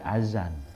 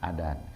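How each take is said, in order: First: The middle consonant is a z sound. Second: The middle consonant is a d sound. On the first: "pakai zai" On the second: "Ada orang azan, adan"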